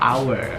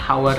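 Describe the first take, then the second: First: The word begins with a vowel, no H. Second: The word begins with an audible H sound. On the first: The speaker calls it right. "H-nya tidak dibunyikan" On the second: The speaker calls it wrong. "masih banyak yang kayak hour hour gitu kan"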